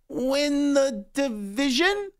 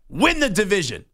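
First: It is said unsurely, like a doubtful question. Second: It is said confidently, as a firm statement.

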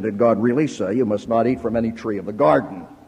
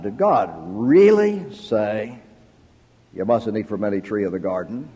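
First: The word really is not specially stressed. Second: The word really is strongly stressed.

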